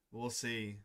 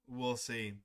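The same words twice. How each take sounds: The two takes are said the same way.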